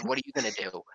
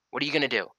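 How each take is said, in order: First: High-pitched taunt, then pulled back quieter; mock a woman who is chasing him; taunting challenge. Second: Said in the usual way. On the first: Taunting her as she runs after him, pitched high. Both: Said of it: "and I said".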